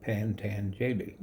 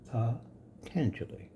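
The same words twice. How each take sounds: First: Slow "Pantanjali" with an extra n, PAN-tan-JA-li; wrong phonetic reading. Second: Slow "Patanjali" with no n in the first syllable, pa-TAN-ja-li; correct pronunciation. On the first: Teacher showing students the wrong way to say the sage's name: slow "Pantanjali". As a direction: spell out the misreading "Pantanjali" slowly, with an n after the first a. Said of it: "if you do it phonetically".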